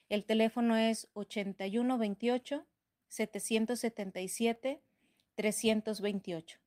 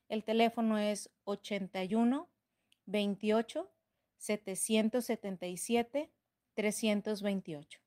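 First: It is said at normal speed. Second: It is said slowly.

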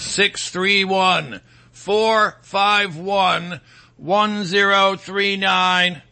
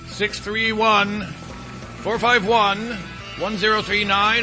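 First: The number is read slowly. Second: The number is read at normal speed.

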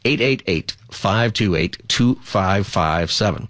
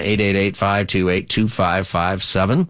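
First: The number is said slowly. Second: The number is said fast.

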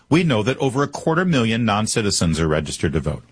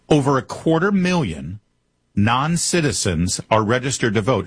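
First: It is said at normal speed. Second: It is said slowly.

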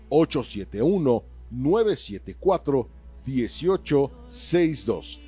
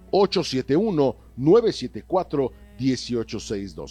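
First: The number is read more slowly. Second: The number is read at normal speed.

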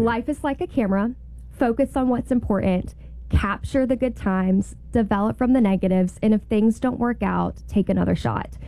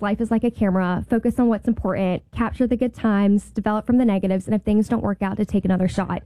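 First: The quote is said slowly. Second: The quote is said quickly.

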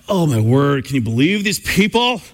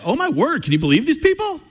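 First: It sounds exasperated and groaning. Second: It sounds joyful and delighted.

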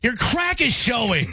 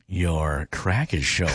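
First: It is said in an angry tone. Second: It is said in a flirty tone.

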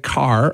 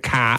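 First: The final R is pronounced, American style. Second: The final R is dropped, Boston style.

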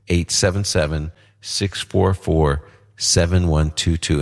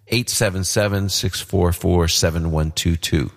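First: The number is said slowly. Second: The number is said at normal, faster speed.

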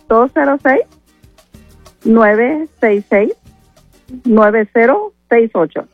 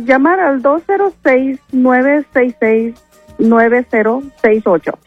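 First: The number is said more slowly. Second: The number is said fast.

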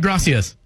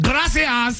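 First: It is said in a plain American accent. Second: It is said with a Spanish accent.

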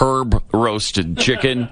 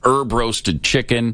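First: It is said in a British accent. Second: It is said in an American accent.

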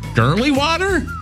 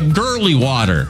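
First: It is said in a real high voice. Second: It is said in a normal voice.

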